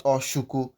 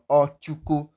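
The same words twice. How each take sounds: First: "oshuko" with a hushing sh; mistaken sh. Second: "Ochuko" with a clear ch in the middle; correct ch. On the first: Teacher warning against the wrong name, sh in oshuko. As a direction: say "oshuko" with sh in place of ch. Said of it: "not oshuko". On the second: Teacher modelling the correct pronunciation, ch in Ochuko. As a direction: say "Ochuko" with a stopped ch, not sh. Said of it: "That is the correct pronunciation". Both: Shown as a demonstration.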